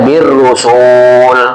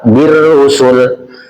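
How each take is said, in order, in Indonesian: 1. Vokal tengahnya dibaca panjang. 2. Vokal tengahnya dibaca pendek. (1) "nggak boleh" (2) "dibacanya pendek ya Pak"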